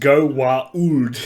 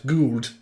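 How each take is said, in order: First: The word is said in three syllables. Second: The word is said in one syllable. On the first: "pronounced Go-Wa-Uld" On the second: "or sometimes Gould, because Jack O'Neill"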